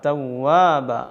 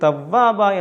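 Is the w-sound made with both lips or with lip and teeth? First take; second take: both lips; lip and teeth. First: The w is a true w made with rounded lips. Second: The w is a v-like sound from teeth on lip. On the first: The speaker calls it right. "രണ്ടു ചുണ്ടും അരുഭാഗം ചേർത്ത് വെച്ച് മധ്യഭാഗം തുറന്നുകൊണ്ടാണ് ... ഇങ്ങനെയാണ് ഉച്ചരിക്കേണ്ടത്" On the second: The speaker calls it wrong. "തവ്വാബ എന്നൊന്നും പറയരുത്. മേലെ മുൻപലിൻ്റെ താഴ്ഭാഗം താഴെ ചുണ്ടിൽ വെച്ചുകൊണ്ടല്ല"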